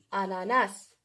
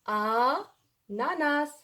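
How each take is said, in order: First: Said in the usual way. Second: "ananas" very slow, first vowel held and set apart; drawn-out syllables. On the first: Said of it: "autre exemple avec moi". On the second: Shown as a demonstration. Teacher sounding out the word while writing it, slow drawn-out syllables. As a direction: stretch "ananas" out slowly, pausing after the first a. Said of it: "autre exemple avec moi, j'écris".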